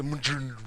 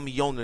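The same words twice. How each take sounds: First: Mjolnir said as the correction, starting myol; corrected pronunciation. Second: Mjolnir said the reader's mistaken way, as mee-OL-ner; mistaken pronunciation. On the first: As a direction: say Mjolnir in two syllables, MYOL-neer. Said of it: "it's a Mjolnir". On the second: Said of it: "It's not Mjolnir". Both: Shown as a demonstration.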